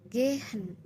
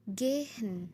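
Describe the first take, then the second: First: The middle consonant is an h sound. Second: The middle consonant is an h sound.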